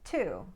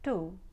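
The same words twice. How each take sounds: First: It is said in a Standard American accent. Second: It is said in an Indian accent. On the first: "Standard American"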